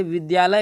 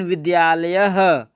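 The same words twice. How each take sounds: First: Said in the usual way. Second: विद्यालयः said slowly, louder, ending in a breathy h after the a; visarga demo. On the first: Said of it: "विद्यालय अगर बोलें". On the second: Shown as a demonstration. Teacher demonstrating the visarga to students, slow and emphatic. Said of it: "लेकिन विद्यालयः".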